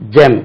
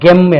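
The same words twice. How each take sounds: First: It begins with a j sound. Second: It begins with a hard g sound. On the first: The speaker calls it right. "This is J" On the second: The speaker calls it wrong. "first time வந்தா நம்ம gem என்று சொல்லுவோம்"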